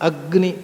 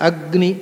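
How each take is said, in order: The two takes are said the same way.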